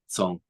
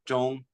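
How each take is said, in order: First: It starts with a plain s sound. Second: It starts with a Mandarin zh sound. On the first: "if you're in Cantonese or Shanghainese or one of the other dialects, it's Song" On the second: "Zhong is Mandarin"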